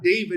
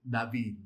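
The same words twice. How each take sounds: First: The name is pronounced the English way. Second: The name is pronounced the Hebrew way. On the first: The speaker calls it wrong. "The Hebrew is not David" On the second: The speaker calls it right. "it's David"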